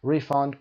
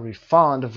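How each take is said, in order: First: "refund" stressed on RE; first-syllable stress. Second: "refund" stressed on FUND; second-syllable stress. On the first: Teacher giving students the noun, "refund" stressed on RE. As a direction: noun form, RE-fund. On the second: Teacher giving students the verb, "refund" stressed on FUND. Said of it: "وربش هست". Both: Shown as a demonstration.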